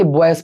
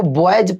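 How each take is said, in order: First: बॉयज ending in voiceless "s", "bo-es". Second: बॉयज ending in a voiced "j", "bo-ej". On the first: Teacher asking students which reading they use, "s"-ending pronunciation. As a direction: close बॉयज on a hissed "s". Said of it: "कि बॉयज पढ़ते हो". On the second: Teacher asking students which reading they use, "j"-ending pronunciation. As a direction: close बॉयज on a "j" sound. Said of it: "आप इसको बॉयज पढ़ते हो". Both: Shown as a demonstration.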